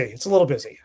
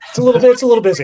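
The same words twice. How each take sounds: First: Low, dry understatement; dry deadpan. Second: Higher, louder, with a laugh; amused exclamation. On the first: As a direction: throw it away deadpan. Repeats the line dryly. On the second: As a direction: blurt it out amused. Guest jokes about being busy. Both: Real, not acted.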